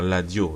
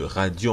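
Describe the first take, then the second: First: The word begins with an L sound. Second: The word begins with an R sound. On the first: "le R devient L" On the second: "radio en français"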